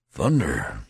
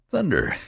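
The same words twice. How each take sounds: First: A mild petulant grumble; lightly voiced, sulky waking complaint; grumpy just-woken soldier, understated. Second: Much higher, louder startled cry; exclaiming. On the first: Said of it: "he remarked petulantly". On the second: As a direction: burst out in surprise. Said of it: "exclaimed the other". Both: A narrator's reading.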